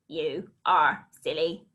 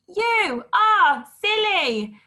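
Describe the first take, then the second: First: The sentence is said in a robotic voice. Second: The sentence is shouted loudly. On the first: "Let's robot it" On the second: "Let's shout it"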